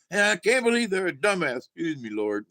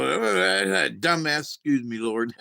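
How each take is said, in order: First: Higher, emphatic preacher voice retold; a touch of pulpit fervor; mock preacher. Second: Slow, laughing through the preacher's words; amused, slowed-down retelling; laughing quote of preacher. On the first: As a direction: preach the insult with a lift. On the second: Retold or imitated. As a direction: chuckle out the insult then apologize. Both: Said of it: "he's like".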